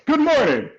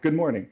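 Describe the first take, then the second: First: A big, intense, full operatic voice. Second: A lighter, smaller, everyday speaking voice.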